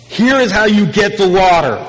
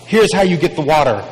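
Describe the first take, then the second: First: Higher, louder, grand pronouncement; a declared answer, raised and loud; emphatic announcement. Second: Said in the usual way. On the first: Acted. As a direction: announce it like a big reveal.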